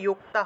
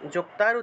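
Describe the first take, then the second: First: The word begins with a 'y' sound. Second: The word begins with a 'j' sound. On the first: The speaker calls it right. "অন্তস্থ জয়ের উচ্চারণটা হলো ইয় রূপে" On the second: The speaker calls it wrong. "যুক্তার উচ্চারণটা ইয়ুক্তা হবে"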